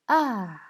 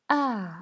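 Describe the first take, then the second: First: The pitch falls sharply from high. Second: The pitch falls sharply from high.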